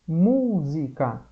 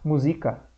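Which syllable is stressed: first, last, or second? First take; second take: first; second. First: The stress is on the first syllable. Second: The stress is on the second syllable. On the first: The speaker calls it right. "a gente fala música" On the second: The speaker calls it wrong. "mas não é o Z o mais forte? Não, porque ia ficar música"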